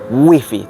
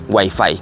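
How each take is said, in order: First: It is read with Spanish sounds, as spelled. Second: It is said with English sounds, like English. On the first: The loanword is adapted to Spanish. "su correcta pronunciación en español sería wifi, tal cual como lo dicen aquí en España" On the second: The word is kept as in English. "lo solemos decir en inglés"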